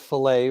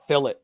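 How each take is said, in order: First: The word is said the French way. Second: The word is said the British way. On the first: "That's a French word" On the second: "the British say it fillet"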